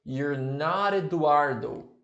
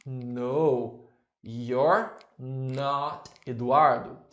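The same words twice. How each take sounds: First: You're not Eduardo run together smoothly; linked sounds. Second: Drawn out slowly, word by word; slow model answer. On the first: Teacher showing class linked pronunciation. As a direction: link the sounds to sound nicer. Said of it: "se você quiser ligar o som e ficar mais bonitinho ainda". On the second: Teacher to class, slow model answer. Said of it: "O que que você me responde". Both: Shown as a demonstration.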